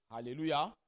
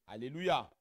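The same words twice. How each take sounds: The two takes are said the same way.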